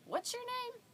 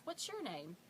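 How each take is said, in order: First: Very high imitation of a puzzled child; small kid asking, pitched way up; confused three-year-old. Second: Said in the usual way. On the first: Confused three-year-old asking the woman back, high child voice. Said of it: "he looks confused". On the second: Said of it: "And she says".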